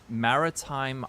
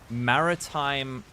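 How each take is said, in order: The two takes are said the same way.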